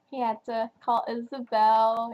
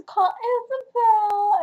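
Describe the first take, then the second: First: Said in the usual way. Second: Higher, louder, voice breaking into tears; choked-up crying. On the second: Real, not acted. Reviewer tearing up over Cole's first call, voice breaking. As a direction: let it catch as the tears come.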